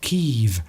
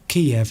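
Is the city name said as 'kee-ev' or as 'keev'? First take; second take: keev; kee-ev. First: The name is said as one short syllable. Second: The name is said as two clear syllables. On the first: This is the way the city is called now. The speaker calls it right. "as Kiev" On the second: This is the old way the city was called. The speaker calls it wrong. "how we now pronounce"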